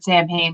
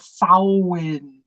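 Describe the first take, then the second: First: It is pronounced the way it is spelled. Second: It is pronounced differently from its spelling. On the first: This is a common pronunciation people still use. The speaker calls it wrong. "you'll still hear people pronounce it Samhain" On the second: This is the proper pronunciation. The speaker calls it right. "but it's a Samhain"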